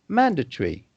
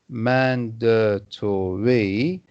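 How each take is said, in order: First: The middle syllables are shortened and reduced. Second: Every middle syllable is clearly pronounced. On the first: "shorten the middle syllables" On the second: "instead of articulating all of the middle of words"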